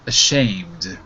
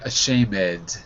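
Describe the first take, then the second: First: The ending is said without an extra syllable. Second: The ending is said as an extra syllable. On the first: The speaker calls it right. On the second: The speaker calls it wrong.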